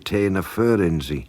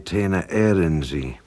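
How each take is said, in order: First: The second word begins with an F sound. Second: The second word begins with a vowel sound. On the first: The speaker calls it wrong. "We do not say" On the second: The speaker calls it right. "We say"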